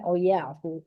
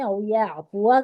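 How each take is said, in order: First: The last word stops short without the final vowel. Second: The last word ends with a full final vowel. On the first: The reader stops at this word. "वक्फ की सूरत में" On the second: The reading continues without stopping. "पढ़ने की सूरत में"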